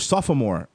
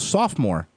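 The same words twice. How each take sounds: First: The word is said in a British accent. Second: The word is said in an American accent.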